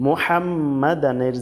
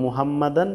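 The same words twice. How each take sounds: First: মোহাম্মাদানের with throaty haa and held m; correct Arabic haa. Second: মুহাম্মাদান with plain h, unstretched; common mistaken reading. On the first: (মোহাম্মাদানের, আরবি হা দিয়ে) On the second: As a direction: say মুহাম্মাদান quickly as in Bengali. (মুহাম্মাদান, সাধারণ হ দিয়ে) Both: Shown as a demonstration. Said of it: "জায়গায় বলে থাকে".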